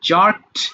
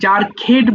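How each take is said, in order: First: The ending adds no extra syllable. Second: The ending is said as an extra syllable. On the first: The speaker calls it right. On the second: The speaker calls it wrong.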